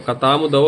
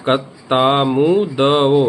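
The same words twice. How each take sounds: First: Said in the usual way. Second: कतामुदओ very slow, every syllable stretched; slow mnemonic demo. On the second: Shown as a demonstration. Teacher drilling the memory trick for students, very slowly. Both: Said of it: "इस तरह से जब हम इसको बोलेंगे".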